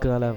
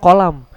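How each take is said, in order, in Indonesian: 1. Awalnya bunyi g yang keras. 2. Awalnya bunyi mirip k, seperti qaf. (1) "membaca ko itu lebih ke go galam gitu" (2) "huruf kof itu"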